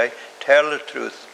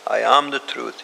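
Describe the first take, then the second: First: "tell" set against "am"; stress on tell. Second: Am leaned on, falling after it; "am" weighted as being, not telling; stress on am. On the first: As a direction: tell leaned on, falling after it. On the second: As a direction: press the word "am" as identity. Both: Shown as a demonstration. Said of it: "He didn't say".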